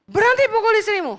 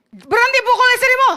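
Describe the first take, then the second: First: Said in the usual way. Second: Loud, sharp command to stop; stern shout. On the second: Retold or imitated. Preacher shouting at a man hitting his wife, a firm loud order. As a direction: bark the order at him.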